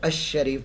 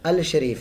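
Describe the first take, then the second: First: The L merges into a doubled sh sound. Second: The L is clearly pronounced before sh. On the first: The speaker calls it right. "तो अशरीफ पढ़ा जाएगा" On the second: The speaker calls it wrong. "अल शरीफ नहीं"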